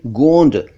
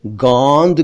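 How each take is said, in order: First: "गोंद" with closed nasal o; correct o vowel. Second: "गोंद" mispronounced "gaund", open au; wrong au vowel. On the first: Shown as a demonstration. Teacher gives correct गोंद, o sound. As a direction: say "गोंद" as "gohnd". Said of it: "कहना चाहिए गोंद". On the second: Retold or imitated. Teacher imitates some people's mistake, au sound. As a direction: say "गोंद" as "gawnd". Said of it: "जो कि गलत है".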